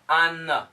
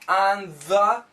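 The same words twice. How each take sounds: First: The n absorbs the th sound when said quickly. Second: The th sound is pronounced clearly after on.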